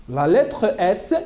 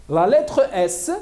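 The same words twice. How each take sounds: The two takes are said the same way.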